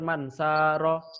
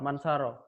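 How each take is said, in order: First: The vowel is held somewhat long. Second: The vowel is cut short. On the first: The speaker calls it right. "Yang benar mansaro, agak panjang" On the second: The speaker calls it wrong. "Itu salah"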